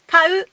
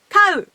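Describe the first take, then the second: First: The pitch starts low and then rises. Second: The pitch starts high and then drops. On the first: It means to buy. "flat, low, high. To buy" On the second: It means to keep animals. "head high, high, low. To have animals"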